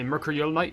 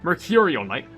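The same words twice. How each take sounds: First: The name is said quickly and slurred. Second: The name is said slowly and carefully. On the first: The speaker calls it wrong. "if I say it fast" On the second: The speaker calls it right. "I have to like make sure I slow down, pronounce it"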